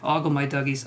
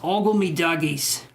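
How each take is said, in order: First: It is read in the speaker's ordinary accent. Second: It is read in a put-on regional accent.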